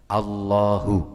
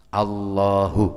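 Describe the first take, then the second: No difference in how they are said.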